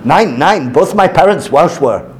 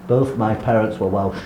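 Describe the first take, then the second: First: Lightly imitated German accent with German word order; mock German accent. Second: Said in the usual way. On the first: Lecturer voicing the German cartoon figure, light German accent. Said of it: "Oh yeah, German".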